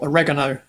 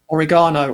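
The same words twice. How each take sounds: First: It is pronounced the American way. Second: It is pronounced the British way.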